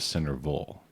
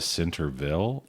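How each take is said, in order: First: The last syllable sounds like 'vol'. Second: The last syllable sounds like 'ville'. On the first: "Do you say Ville or Vol?" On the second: "Do you say Ville or Vol?"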